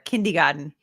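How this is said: The word is said in an imitated regional accent. Someone else said it. "that's an accent right there"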